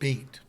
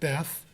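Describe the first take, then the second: First: The word ends with a t sound. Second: The word ends with a th sound. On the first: "you pronounce it Beit" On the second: "If you're English, you pronounce it Beth"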